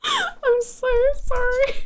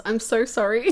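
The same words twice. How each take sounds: First: Higher and slow, sing-song sorry; sheepish squeaky apology; high drawn-out sorry. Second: Low apology with a laugh in it; sheepish laughing sorry. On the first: Laughing apology to chat. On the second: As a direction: giggle through the sorry. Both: Real, not acted.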